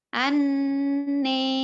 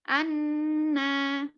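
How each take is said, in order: First: The final vowel is close to e. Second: The final vowel is a full open a. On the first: "Kalau imalah" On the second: "Kalau fathah"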